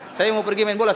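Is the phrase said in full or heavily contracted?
full. Every word is said in full, standard Indonesian.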